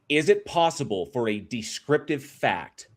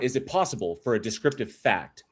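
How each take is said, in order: First: It is said at a slower pace. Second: It is said at a normal, faster pace.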